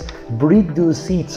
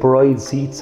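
First: The name is said as two syllables, 'bridu'. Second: The name is said as one syllable, 'bride'. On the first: "I think they're a Bridu or whatever" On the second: "that's just how we speak"

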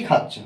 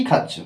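Both takes have the same delivery.

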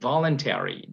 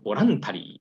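First: The stress falls on the first syllable. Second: The stress falls on a later syllable. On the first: The speaker calls it right. "意味のvoluntary ですよね" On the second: The speaker calls it wrong. "これをボランタリーっていうふうに言うと、結構ってなりますよね"

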